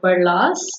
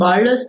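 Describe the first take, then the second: First: The name has its Pakistani pronunciation. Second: The name has an Americanized pronunciation. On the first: This is how it is said back home. "in Pakistan, it's actually called Barlas" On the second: This is how it is said in the U.S. "the Americanized version"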